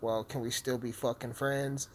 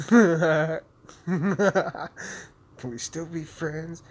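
First: Said in the usual way. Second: High, slow, whiny plea; drawn-out mock pleading friends. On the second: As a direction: beg it like a needy ex.

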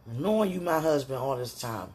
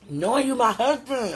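First: Said in the usual way. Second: High, loud burst of feeling; worked-up, raised-pitch outburst; exasperated exclamation. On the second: Real, not acted. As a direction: cry it out at a loved one. Repeats it as an exclamation to sweetheart.

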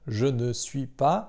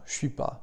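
First: Slow, careful "je ne suis pas" with every syllable sounded, the ne kept in; very clear French. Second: "suis pas" run together fast and casual, je and ne dropped; quick sloppy French. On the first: Teacher showing learners the full careful French form, slow and clear. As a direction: spell out "je ne suis pas" slowly, nothing dropped. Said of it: "gdybym chciał powiedzieć tak bardzo wyraźnie". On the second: Teacher showing learners the clipped everyday French form, fast and careless. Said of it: "szybko i niedbale". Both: Shown as a demonstration.

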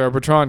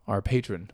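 First: "patron" as puh-TRON, stress last; playful mispronunciation of patron. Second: "patron" as PAY-trun, stress first; standard pronunciation of patron. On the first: Pretend. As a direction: say "patron" with a weak first syllable and full "TRON". Repeats the joking mispronunciation. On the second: Shown as a demonstration. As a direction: say "patron" with a long "ay" up front. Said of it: "I got it right this time".

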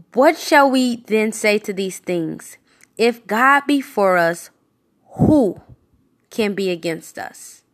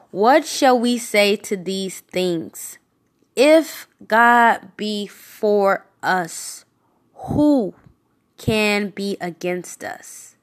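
First: Fuller voice, rising on who; scripture reread. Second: Slow whispered start, long pause before who; slow dramatic reading. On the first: Preacher rereading the verse to his listeners. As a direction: read it again with more lift on who. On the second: Preacher reading scripture slowly to listeners. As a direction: read it slowly, letting each phrase hang. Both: Shown as a demonstration. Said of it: "I'm gonna read one more time".

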